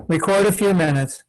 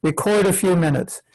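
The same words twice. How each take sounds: The two takes are said the same way.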